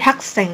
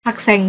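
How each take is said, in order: First: The s sound is long and tense. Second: The s sound is short and plain. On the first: The speaker calls it right. "tapi hakseng. Jadi S-nya double" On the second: The speaker calls it wrong. "bukan hakseng gitu ya"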